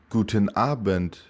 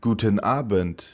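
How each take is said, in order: Both takes have the same delivery.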